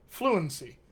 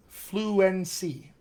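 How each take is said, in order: First: "fluency" quickly as "FLU-un-see"; everyday smushed "fluency"; reduced. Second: "Fluency" slowly as "flu-EN-see"; slow, full middle vowel in "Fluency"; unreduced. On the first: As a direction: shrink the middle of "fluency" to a schwa. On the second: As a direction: sound out every syllable of "Fluency". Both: Shown as a demonstration. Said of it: "I just did it".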